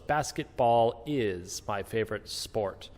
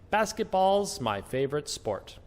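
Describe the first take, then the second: First: The word is sounds as a full separate word. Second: The word is shrinks to an s sound. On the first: The speaker calls it wrong. "So it's" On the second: The speaker calls it right. "we don't say is, we just say"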